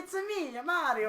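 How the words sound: It is said in a put-on Italian accent.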